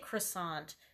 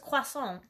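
First: It is said with an ordinary English pronunciation. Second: It is said with a French-style pronunciation. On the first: The speaker calls it wrong. "I say croissant" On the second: The speaker calls it right. "they're saying it right"

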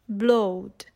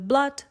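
First: The vowel rhymes with load. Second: The vowel is short. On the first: This is the 14th and 15th century pronunciation. "they would rhyme with the word load" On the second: This is the modern pronunciation. "are now even shorter"

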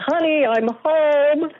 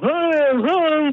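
First: It is said in a clear, normal voice. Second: It is said in a muffled, distorted voice.

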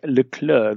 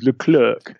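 First: The final c sound is silent. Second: The final c sound is pronounced. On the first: The speaker calls it right. "His name is Leclerc. The C is silent" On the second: The speaker calls it wrong. "Every Anglo person, Anglo-Saxon in the world, says Leclerc"

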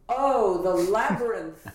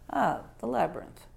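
First: It is loud and theatrically projected. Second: It is quiet with much lower intensity.

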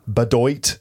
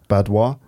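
First: The name is said an anglicized way. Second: The name is said the French way. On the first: The speaker calls it wrong. "Of course, it's not Bedoit. Have you ever heard a French person make that noise?" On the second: The speaker calls it right. "It's Badois, though, isn't it?"

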